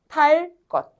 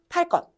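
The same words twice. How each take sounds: First: Said slowly, with a pause and a plain second sound. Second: Said fast and linked, with a tense second sound. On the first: "얘를 천천히 한 박자 쉬고 발음해봐" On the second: "연달아 발음하면 탈 것 이렇게 된다고"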